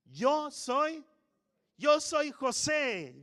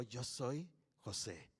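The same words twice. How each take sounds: First: High, loud tearful cry, slowed. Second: Much softer, lower, slow reveal; hushed reveal. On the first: Joseph reveals himself to his brothers, weeping loudly. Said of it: "llorando entre lágrimas". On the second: Joseph quietly tells his brothers who he is, hushed and slow. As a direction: let the words fall quietly, stunned. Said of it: "No sé con qué tono". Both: Acted.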